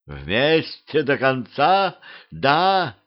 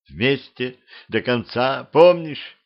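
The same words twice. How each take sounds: First: Slow, mocking echo of a promise; thundering. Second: Slow, tearful plea rising on the last word; nearly crying. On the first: Queen throwing the vow back at her sister, thundering. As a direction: stretch out the question, then lift the answer. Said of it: "грохотал голос королевы". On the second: Vampire girl reminding her long-lost sister, nearly crying. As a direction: close to tears, drawing the words out. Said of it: "Чуть не плача сказала она". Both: A narrator's reading.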